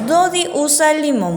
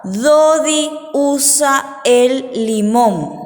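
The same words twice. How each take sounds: First: Said in the usual way. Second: Slow, drawn-out words; dictation. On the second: Shown as a demonstration. Teacher dictates sentence two to children, slow and stretched. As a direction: dictate it slowly, word by word. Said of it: "El número dos les dicto".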